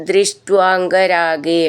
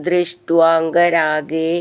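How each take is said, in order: Both takes have the same delivery.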